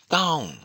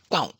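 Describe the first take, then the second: First: The syllable is said on a high pitch. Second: The vowel is short. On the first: "high tone" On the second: "short vowel"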